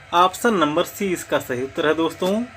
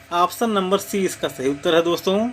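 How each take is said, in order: No difference in how they are said.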